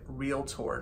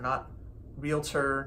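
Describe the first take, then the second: First: It is said with two syllables, no extra vowel. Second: It is said with an extra vowel, three syllables. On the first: The speaker calls it right. "that is the correct way to say it" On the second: The speaker calls it wrong. "It's not an extra vowel in there"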